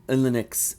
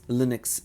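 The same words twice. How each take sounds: First: It is read as a single blended word. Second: The same.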